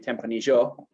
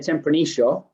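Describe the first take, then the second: First: The double L sounds like 'y'. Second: The double L sounds like 'sh'. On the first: It follows the Mendoza way of speaking. "they're a bit closer to the Spanish um, pronunciation" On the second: It follows the Buenos Aires way of speaking. "we go shh with the double L"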